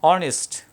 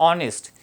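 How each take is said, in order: Both takes have the same delivery.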